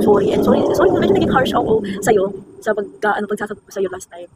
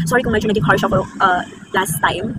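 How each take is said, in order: First: Sincere apology. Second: Soft apology. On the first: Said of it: "Gusto ko yung sabihin". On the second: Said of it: "Ito yung sasabihin ba?". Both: Pretend.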